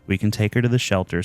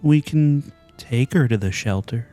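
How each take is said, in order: First: It is said in a practical, plain way. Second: It is said sadly, with a sigh.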